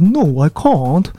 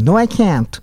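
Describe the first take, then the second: First: It is said in a British accent, like "kahnt". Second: It is said in an American accent, like "kyan". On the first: "イギリス英語だったらNo I can't というような発音になります" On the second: "アメリカ英語だったら"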